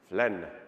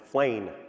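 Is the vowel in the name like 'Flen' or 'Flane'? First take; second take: Flen; Flane. First: The name is said the speaker's own way, like 'Flen'. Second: The name is said the American way, like 'Flane'.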